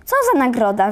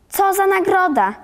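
First: A touch of a croaked call; mildly raised, croaked question. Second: Higher-pitched, falling mock question; exasperated echo. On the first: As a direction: blurt out an eager question. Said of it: "wychrypiał na cały głos". (lekko podniesione, chrapliwe pytanie) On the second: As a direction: throw the question back like an irked teacher. Teacher echoes question, scolding Karolek. (zirytowane, wyższe powtórzenie pytania) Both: A narrator's reading.

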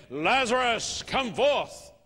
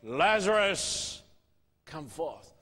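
First: Strong, raised call to come out; a touch louder and higher, summoning the dead; commanding call. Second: Calling a dead friend out of the tomb, then fading; loud cry. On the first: Preacher voicing Jesus calling Lazarus out, commanding. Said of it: "Jesus went to the tomb and said". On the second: Preacher voicing Jesus at the tomb, slow and fading. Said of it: "he cried in a loud voice". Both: A narrator's reading.

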